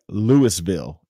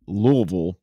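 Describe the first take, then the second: First: The word is said as written, every syllable full. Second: The word is said in a clipped, reduced form. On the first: This is how outsiders read it. "but it's spelled like" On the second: This is how locals say it. "It's pronounced"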